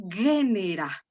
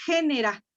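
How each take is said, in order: First: Genera with a hard g as in go, GE-ne-ra. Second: Genera with a soft throaty Spanish g, HE-ne-ra. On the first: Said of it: "lo pronunciamos suave ... y decimos". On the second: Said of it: "como nosotros tendríamos que pronunciarla". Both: Shown as a demonstration.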